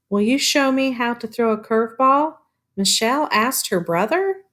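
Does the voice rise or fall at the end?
rise. The voice rises at the end like a question.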